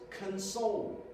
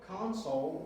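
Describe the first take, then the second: First: The stress is on the second syllable. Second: The stress is on the first syllable. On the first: It means to comfort someone in grief. "To console someone means that we are trying to ease their grief" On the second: It names a cabinet. "this pronunciation, console, refers to the cabinet"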